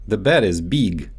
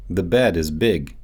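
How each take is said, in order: First: Big said as "beeg" with a long ee; Russian-accented "big" stretched to beeg. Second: Said in the usual way. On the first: Shown as a demonstration. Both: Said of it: "so they often get mixed up in English".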